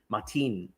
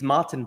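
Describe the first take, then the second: First: The name is said with a Spanish accent. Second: The name is said with a plain English accent. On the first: "add the Hispanic inflection" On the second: "it's Martin"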